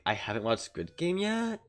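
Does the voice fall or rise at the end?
rises. The voice rises at the end, a question.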